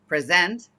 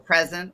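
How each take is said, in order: First: The stress is on the second syllable. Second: The stress is on the first syllable. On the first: Giving a presentation to people. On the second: Being here and now.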